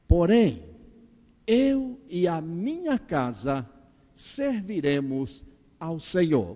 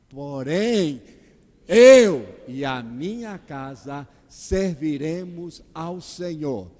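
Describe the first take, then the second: First: No word gets special stress. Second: The word eu is stressed.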